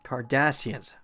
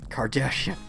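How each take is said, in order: First: The middle consonant is an 's' sound. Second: The middle consonant is an 'sh' sound. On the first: The speaker calls it right. "I should say Cardassians" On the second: The speaker calls it wrong. "I keep saying Kardashian"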